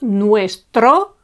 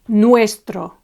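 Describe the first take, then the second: First: The stress is on the last syllable. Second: The stress is on the first syllable. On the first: The speaker calls it wrong. "not nuestro" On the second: The speaker calls it right. "it's nuestro"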